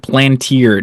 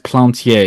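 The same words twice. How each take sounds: First: The name is given an Americanized pronunciation. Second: The name is given a French pronunciation. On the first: The speaker calls it wrong. "Just like Phil Plantier" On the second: The speaker calls it right. "No, your name is Plantier"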